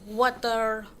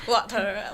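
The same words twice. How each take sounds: First: It is American, with a clear final R. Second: It is British, with a soft final R.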